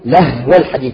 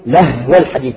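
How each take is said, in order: First: The h is vowelless and held for its time. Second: The same.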